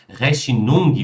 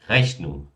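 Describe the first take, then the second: First: The stress falls on the final syllable. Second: The stress falls on the first syllable. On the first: The speaker calls it wrong. "sempre colocam a, a, a entonação ainda no final" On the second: The speaker calls it right. "esse ong, ele nunca é pronunciado forte"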